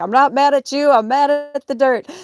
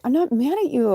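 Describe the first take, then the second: First: Loud, high, hammed-up hysterics; Mommy Dearest. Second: High-pitched mock-upset whine; retold tearful reassurance. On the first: Ranting at her cat in mock maternal fury. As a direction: screech it like a melodramatic movie mother. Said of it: "Mommy dearest". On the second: Upset owner to her cat, tearful reassurance. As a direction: insist it in a high, half-crying voice. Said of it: "And I started crying".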